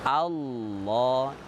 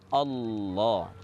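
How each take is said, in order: The two takes are said the same way.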